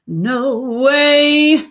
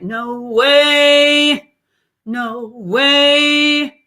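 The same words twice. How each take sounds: First: Said in the usual way. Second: Twangy sung "no way", loud; nasal "no way". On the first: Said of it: "that's not nasal, right?". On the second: Shown as a demonstration. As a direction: push "no way" into the nose. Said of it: "Nasality shifts".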